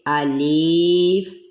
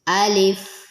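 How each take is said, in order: First: The vowel after the L is drawn out long. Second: The vowel after the L is kept short. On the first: The speaker calls it wrong. "इसको हमने अलीफ या अलिफ इस तरह नहीं पढ़ना" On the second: The speaker calls it right. "बल्कि लाम के नीचे ज़ेर ही होगी"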